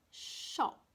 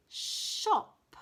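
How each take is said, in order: First: "Shop" whispered, long sh; whispered word. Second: "shop" high, with a long hushed sh; stressed sh. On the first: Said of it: "with a sh at the beginning". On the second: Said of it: "another one with a sh at the beginning". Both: Shown as a demonstration.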